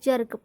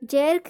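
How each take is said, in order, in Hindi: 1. स्वर सामान्य 'uh' जैसा सुनाई देता है। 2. स्वर पूरे 'eh' जैसा सुनाई देता है। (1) "जर्क पढ़ा जाएगा" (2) "जैर्क नहीं हुआ, जैर्क नहीं पढ़ा जाएगा"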